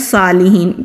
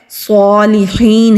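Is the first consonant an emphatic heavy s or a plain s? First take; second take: plain; emphatic. First: It begins with a plain, light s sound. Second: It begins with a heavy, emphatic s sound. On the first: The speaker calls it wrong. "अक्सर लोग पढ़ते हैं सालिहीन, तो ये सालिहीन नहीं है" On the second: The speaker calls it right. "सीन नहीं पढ़ेंगे"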